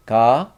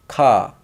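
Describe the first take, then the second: First: Ka, G-like onset, loud and rising; G-like sound demo. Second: Ka, loud K onset, falling tune; K sound demo. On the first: Teacher showing a little bit different sound, "ka" as rising G. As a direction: say "ka" close to "ga", lifting at the end. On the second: Teacher showing a little bit different sound, "ka" as falling K. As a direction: say "ka" with a strong K, dropping in pitch. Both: Shown as a demonstration. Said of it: "G sound and k sound".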